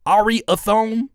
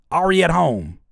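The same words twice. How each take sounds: First: "Ariathone" slow, high and rising; puzzled mispronunciation. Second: Said in the usual way. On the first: Shown as a demonstration. Streamer sounding out the name, slow rising "Ariathone". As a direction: stretch "Ariathone" into a questioning "Ari-a-thone". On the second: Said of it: "That makes a lot more sense".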